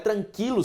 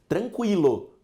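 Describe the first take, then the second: First: The u after the q is silent. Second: The u after the q is pronounced. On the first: The speaker calls it wrong. "Só é tranquilo se você estiver na terra nostra" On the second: The speaker calls it right. "eu tenho a pronúncia"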